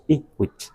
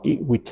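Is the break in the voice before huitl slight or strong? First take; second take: strong; slight. First: The voice breaks sharply before huitl. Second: The voice breaks only slightly before huitl. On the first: This is how it is said in the Huasteca. "muy sonado esa salto de la voz" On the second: This is how it may be said in the central region. "pero no tan marcado"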